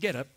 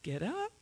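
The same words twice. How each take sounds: First: It sounds flat, like a plain statement. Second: It sounds hesitant and unsure of itself. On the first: The command is just a routine statement. "with a period" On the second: The speaker doubts the command will work. "Like he didn't know if it was going to work"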